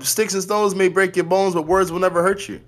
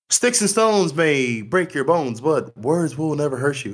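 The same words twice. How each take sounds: First: It is said in his own normal voice. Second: It is said in a Captain Kirk impression.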